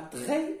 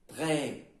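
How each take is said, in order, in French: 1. La voyelle est courte et non allongée. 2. La voyelle est ouverte et un peu allongée. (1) "ce n'est pas" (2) "Il est un peu allongé"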